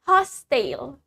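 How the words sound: The word is said in a British accent. "That's in British English"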